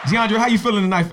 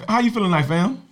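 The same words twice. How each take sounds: First: High, loud hype greeting; hyped greeting. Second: Hyped greeting. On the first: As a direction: pump up the guest's welcome. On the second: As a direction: keep the welcome pumped up. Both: Acted.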